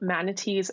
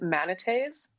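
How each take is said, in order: First: The word is pronounced in the ordinary English way. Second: The word is pronounced in a French-sounding way.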